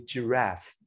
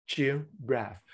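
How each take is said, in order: First: Said in the usual way. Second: "giraffe" in two separate beats, a pause between; split into syllables. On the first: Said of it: "fingers according to the number of syllables". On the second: Shown as a demonstration. Trainer showing teachers a finger-counting activity, "giraffe" broken into two syllables. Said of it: "the number of syllables in the word".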